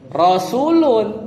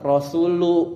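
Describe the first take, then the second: First: The word ends with an added n sound. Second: The word ends on a vowel, without n. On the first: The following word has truly been dropped. "boleh tanwin" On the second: The following word is dropped but still implied. "Jadi tetap Rasulu gitu"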